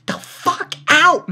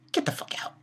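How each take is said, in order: First: Loud dismissal. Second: A soft, unvoiced, contemptuous brush-off; whispered dismissal. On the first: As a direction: get the fuck out, higher, louder and slow. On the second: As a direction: whisper get the fuck out under your breath. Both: Real, not acted. Ranting at character Cohen.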